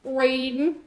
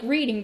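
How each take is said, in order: First: Reading said as readin' with the final G dropped; Southern dropped G. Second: Said in the usual way. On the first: Shown as a demonstration. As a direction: drop the G, readin' in a Southern drawl. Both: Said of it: "leave the final G off".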